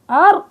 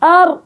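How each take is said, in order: First: أر with the outlet shut, pushed higher; wrong closed ra. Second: أر closed off, pitched higher; wrong closed ra. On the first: Teacher demonstrating a common mistake on ra. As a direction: clamp أر shut like a stop. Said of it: "من الأخطاء الشائعة". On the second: Teacher imitating a common error. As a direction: shut the outlet on أر. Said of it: "من الأخطاء الشائعة إني أنا أقول". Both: Shown as a demonstration.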